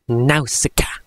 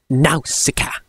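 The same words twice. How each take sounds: First: It is said like a male trailer voiceover. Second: It is said like a male trailer voiceover.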